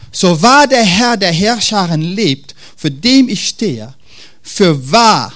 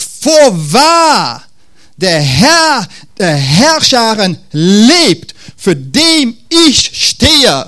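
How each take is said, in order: First: Said in the usual way. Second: Louder, higher and very slow, like a grand proclamation; a prophet making a solemn formal vow; formal solemn oath. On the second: Shown as a demonstration. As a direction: swear it stiffly and ceremoniously, drawing out each word. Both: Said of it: "er wird jetzt formell".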